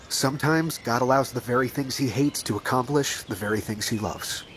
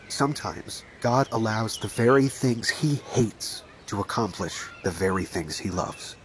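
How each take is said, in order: First: It is said at a normal pace. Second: It is said more slowly.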